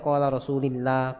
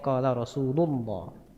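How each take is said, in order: First: The vowel after 'Rasul' is an i sound. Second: The vowel after 'Rasul' is a u sound. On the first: The speaker calls it wrong. "nggak boleh baca qala Rasulillah" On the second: The speaker calls it right. "Bacanya qala Rasulullah"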